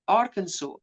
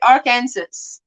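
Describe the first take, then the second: First: The ending is not said like Kansas. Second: The ending is said like the word Kansas. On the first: The speaker calls it right. "you pronounce it Arkansas" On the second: The speaker calls it wrong. "Like in Kansas"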